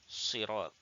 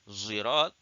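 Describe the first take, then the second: First: The first consonant is a plain emphatic s. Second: The first consonant is a z-like sound. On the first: "Khallat dia baca sirat" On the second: "khalaf dia akan baca zirat"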